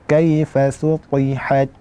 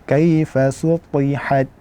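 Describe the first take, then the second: The two takes are said the same way.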